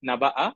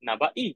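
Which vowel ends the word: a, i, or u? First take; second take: a; i. First: The word ends with an a vowel. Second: The word ends with an i vowel. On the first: "ফাতহা" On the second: "কাসরা"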